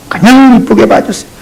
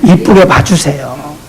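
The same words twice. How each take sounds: First: Said in the usual way. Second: 이쁘게 봐주세요 soft, low, slow with rising 이쁘게; soft, slow plea to see others kindly; tender plea. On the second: Shown as a demonstration. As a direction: gently plead with the flock. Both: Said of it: "gentle plea repeated".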